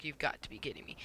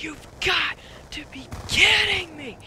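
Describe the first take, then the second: First: Retold exasperation, kept soft; quiet, deflated disbelief under the breath; muted disbelief. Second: Re-enacted rage, high strained yell; mad outburst. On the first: Retold reaction to yet another freeze. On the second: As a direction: draw it out as a loud, exasperated scream. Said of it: "I get so mad".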